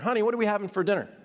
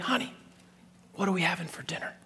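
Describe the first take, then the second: First: It is said aloud, fairly loudly. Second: It is whispered very quietly.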